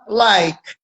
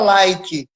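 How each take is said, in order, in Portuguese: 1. A palavra termina em som de consoante. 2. A palavra termina com um som de vogal acrescentado. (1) "você fala like" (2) "você não fala like"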